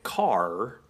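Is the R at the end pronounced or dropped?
pronounced. It ends with a hard R sound.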